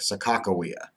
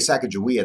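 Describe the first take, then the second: First: The name is said the original native way. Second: The name is said the usual American way. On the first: The speaker calls it right. "the technical pronunciation of Sacagawea, the way that it's actually appropriate" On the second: The speaker calls it wrong. "that's actually more of the uh, American pronunciation of her name"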